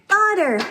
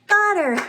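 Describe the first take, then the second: The two takes are said the same way.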